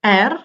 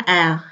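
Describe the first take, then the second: First: 'R' with the final r sounded; as spelled. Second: 'L' as an open 'eh', r barely heard; silent final r. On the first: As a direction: say 'R' as written, r included. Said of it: "Eh, tulisannya". ('R' dibaca sesuai tulisannya) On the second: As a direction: let the r vanish from 'L'. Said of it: "R di belakangnya nggak terlalu kedengeran". ('L' dengan r nyaris tak terdengar) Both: Shown as a demonstration.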